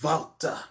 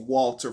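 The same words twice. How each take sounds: First: The name begins with a V sound. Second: The name begins with a W sound. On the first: This is the name's real pronunciation. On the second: This is the version for people who don't know the real pronunciation.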